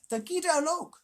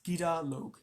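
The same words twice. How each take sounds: First: "Gida Log" said in the high jackal voice with a rising "Gida"; trying out "Gida Log", unsure; tentative pronunciation. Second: "Gida Log" said plainly, "Gida" stressed, ending falling; confirming pronunciation. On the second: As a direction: settle on "Gida Log" with a firm fall. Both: Shown as a demonstration. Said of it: "Did I pronounce that right?".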